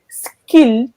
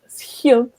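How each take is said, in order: First: It is said with a French accent. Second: It is said with a Dutch accent. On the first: The speaker is a French speaker. The speaker calls it wrong. "they would say skilled instead of schild" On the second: The speaker is a Dutch speaker. The speaker calls it right. "instead of schild"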